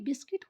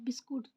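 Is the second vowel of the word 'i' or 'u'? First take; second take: i; u. First: The second syllable has an 'i' vowel. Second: The second syllable has a 'u' vowel. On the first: This is the standard pronunciation. "बिस्किट होता है" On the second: This is how villagers with weak English say it. "जो गांव में जो बोला जाता है बिस्कुट"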